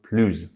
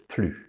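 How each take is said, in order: First: The word ends with a z sound. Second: The word ends with no final consonant sound. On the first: "an adjective beginning with a vowel, so plus" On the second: "Fier starts with a consonant, so it's plus"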